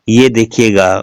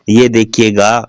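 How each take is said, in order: Both takes have the same delivery.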